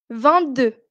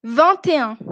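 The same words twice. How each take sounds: First: "vingt-deux" with no T after "vingt"; silent T. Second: "vingt et un" with T linked into "et"; sounded T liaison. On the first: Teacher tests whether class hears a difference, silent T in "vingt-deux". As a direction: drop the T of "vingt" before "deux". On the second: Teacher tests whether class hears a difference, liaison T in "vingt et un". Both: Shown as a demonstration. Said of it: "une différence à la prononciation".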